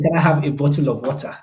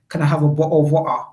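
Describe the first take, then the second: First: The T sounds in bottle and water are pronounced. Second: The T sounds in bottle and water are dropped.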